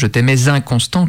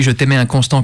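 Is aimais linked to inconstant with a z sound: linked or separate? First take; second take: linked; separate. First: Aimais links into inconstant with a z sound. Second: Aimais and inconstant are said separately, without linking. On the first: The speaker calls it wrong. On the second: The speaker calls it right.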